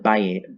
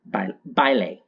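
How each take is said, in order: First: The L and A sounds are slurred together. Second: The L and A sounds are clearly pronounced. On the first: The speaker calls it wrong. "I don't speak Spanish, I'm sorry" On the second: The speaker calls it right. "there we go. They pronounce the L and the A"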